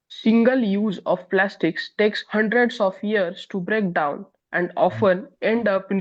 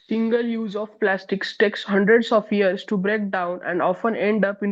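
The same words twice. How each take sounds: First: It is read slowly. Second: It is read quickly.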